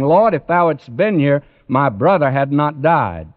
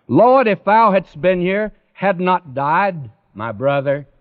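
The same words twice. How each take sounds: First: Said in the usual way. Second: "Lord" lifted high and leaned on, "had not died my brother" trailing off after it; emphasis on the Lord. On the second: Shown as a demonstration. Preacher shows Mary's true emphasis, stress on "Lord". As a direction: open big on "Lord", then let the rest drop away. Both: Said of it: "The emphasis is this".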